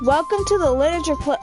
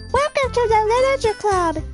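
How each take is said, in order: First: It is said in the reader's normal voice. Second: It is said in a put-on character voice.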